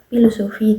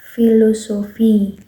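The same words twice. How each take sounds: First: The first letters are read as a p-h sound. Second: The first letters are read as an f sound. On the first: The speaker calls it wrong. "Kita bacanya kan nggak filosofi" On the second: The speaker calls it right. "tapi filosofi"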